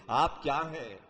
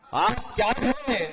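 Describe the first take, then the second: First: Said in the usual way. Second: آپ کیا ہیں؟ declaimed slow, higher and louder; stately nazm recitation. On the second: Acted. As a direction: lift آپ کیا ہیں؟ slowly into grand verse. (شاہانہ انداز میں آہستہ بلند آواز) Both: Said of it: "repeated take declaimed".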